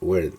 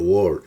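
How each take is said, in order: First: The vowel sounds like an 'er' sound. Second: The vowel sounds like an 'or' sound. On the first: The speaker calls it right. "se pronuncia como E" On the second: The speaker calls it wrong. "No se dice word"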